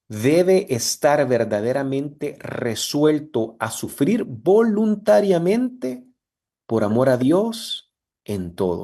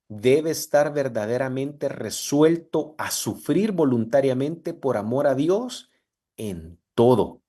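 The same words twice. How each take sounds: First: It is spoken a little more slowly. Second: It is spoken at a normal, quicker pace.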